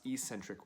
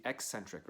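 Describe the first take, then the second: First: "eccentric" said as EE-sen-trik; alternative pronunciation. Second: Said in the usual way. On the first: Shown as a demonstration. Coach explaining muscle work, "eccentric" with a long EE first. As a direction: start "eccentric" with a long ee, not ek. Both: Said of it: "or sometimes pronounced".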